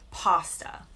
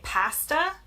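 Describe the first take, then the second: First: It is said in an American accent. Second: It is said in a British accent. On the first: "In the U S, we say pasta" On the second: "In the U K, they say pasta"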